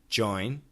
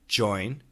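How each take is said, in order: First: It begins with one clear single J sound. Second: It begins with one clear single J sound.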